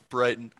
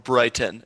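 First: The middle t sound is dropped. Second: The middle t sound is clearly pronounced.

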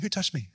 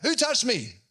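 First: It is said softly and gently. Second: It is yelled out loudly.

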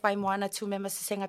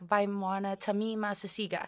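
First: The name is said with native pronunciation. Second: The name is said with an English-speaker pronunciation. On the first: "if I went with" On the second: "people would be like"

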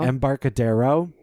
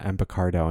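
First: Every syllable of the name is pronounced. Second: A syllable near the end is left out. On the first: The speaker calls it right. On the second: The speaker calls it wrong.

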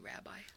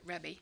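First: It is said as rabbi, the modern form. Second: It is said as rebbe, the older form. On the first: This is how people say it today. "We'd say rabbi" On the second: This is how people then said it. "I think they pronounced it Rebbe"

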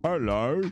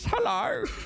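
First: A lower, steady Warcraft peasant voice. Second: A high-pitched, cracking voice.

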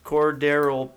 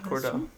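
First: The name is said with three syllables. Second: The name is said with two syllables. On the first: The speaker calls it right. "so Cordarrelle Patterson" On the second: The speaker calls it wrong. "you've been saying it wrong"

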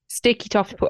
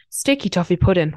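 First: It is said in an ordinary everyday voice. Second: It is said in a special put-on voice. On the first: The speaker calls it wrong. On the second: The speaker calls it right.

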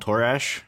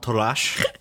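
First: The name is said in a plain everyday accent. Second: The name is said in a draconic-sounding accent. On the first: This is the casual nickname form everyone uses. "followed by the normal way everyone says your name" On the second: This is the name's true pronunciation. "Perfect pronunciation and like the draconic accent"

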